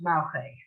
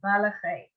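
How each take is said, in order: First: The middle vowel is dropped entirely. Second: The middle vowel is a very short eh. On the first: This is how fast everyday speakers say it. "when you're going fast like the Israelis do" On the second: This is an acceptable careful pronunciation. "it can be malache"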